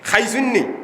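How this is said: It begins with an aspirated kh sound. This is how people from Sylhet say it. "সিলেটিরা বলে খাইসুন্নি"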